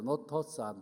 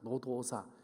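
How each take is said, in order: First: The middle consonant is a harsh t sound. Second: The middle consonant is a soft d sound. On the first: The speaker calls it wrong. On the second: The speaker calls it right.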